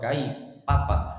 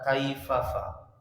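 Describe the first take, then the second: First: The consonants are p sounds. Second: The consonants are f sounds. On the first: The speaker calls it wrong. "itu orang Sunda" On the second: The speaker calls it right. "bukan pak tapi fa"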